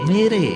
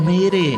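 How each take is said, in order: The two takes are said the same way.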